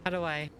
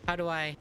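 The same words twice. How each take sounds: The two takes are said the same way.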